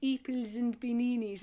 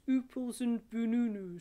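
First: Every vowel is replaced by an ee sound. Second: Every vowel is replaced by an oo sound. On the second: "we're saying it all on an oo vowel"

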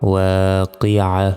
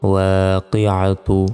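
First: The word ends cut short with a soft h. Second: The word ends with a full -tu ending. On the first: The reciter stops at this word. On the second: The recitation continues without stopping.

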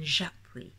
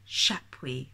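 First: The name starts with a 'j' sound. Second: The name starts with a 'ch' sound. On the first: The speaker calls it right. "rather than Japuis" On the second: The speaker calls it wrong. "he says Chapuis"

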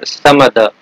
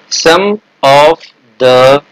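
First: The word 'of' is reduced to a schwa. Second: The word 'of' is pronounced fully.

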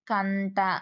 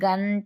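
First: The word starts with a voiceless 'k' sound. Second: The word starts with a voiced 'g' sound. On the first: The speaker calls it wrong. "శరణానికి పరుషం పలకడం" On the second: The speaker calls it right. "శరణానికి పరుషం పలకడం"

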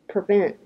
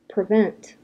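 First: The final T is swallowed in the throat. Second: The final T is clearly released. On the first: "Say NT with your throat" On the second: "Let's really pronounce T"

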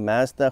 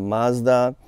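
First: It is said with a Canadian pronunciation. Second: It is said with an American pronunciation. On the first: "which is a Canadian way" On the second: "in the US it's kind of Mazda"

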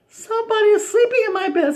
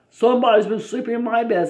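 First: It is said in a wee little voice. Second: It is said in a great big voice.

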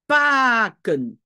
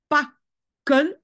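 First: The first vowel is long. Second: The first vowel is short. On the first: The speaker calls it wrong. "je dis pas pakken" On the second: The speaker calls it right. "J'entends un A court parce que je dis pakken"

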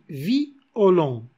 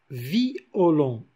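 First: The i and o are split into two syllables. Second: The i and o are split into two syllables.

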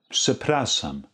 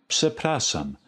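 The two takes are said the same way.

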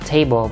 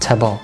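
First: The first vowel is full and stressed. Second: The first vowel is reduced and unstressed. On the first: "chữ table bình thường á" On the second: "sẽ bị giảm nhấn thành là table"

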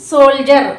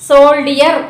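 First: It is said as two syllables, sol-jer. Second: It is said as three syllables, sol-di-er. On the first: The speaker calls it right. "మనం pronounce చేసే ప్రకారం సోల్జర్" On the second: The speaker calls it wrong. "ఇది సోల్డియర్ కాదు"

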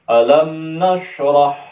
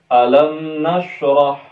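The two takes are said the same way.

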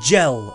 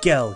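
First: The word begins with a soft J sound. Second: The word begins with a hard G sound. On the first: The speaker calls it wrong. "It's not pronounced gel" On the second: The speaker calls it right. "that's how you pronounce it"

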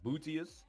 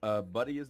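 First: The first syllable sounds like booty. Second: The first syllable sounds like bud. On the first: The speaker calls it wrong. "like Booty" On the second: The speaker calls it right. "It's Bud, you know? Like a Bud"

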